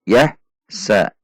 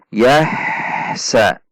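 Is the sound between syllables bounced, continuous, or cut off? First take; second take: cut off; continuous. First: The syllables are cut apart with a break. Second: The syllables flow on without any break. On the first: The speaker calls it wrong. "Itu dipisah" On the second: The speaker calls it right. "antara sa tidak terputus"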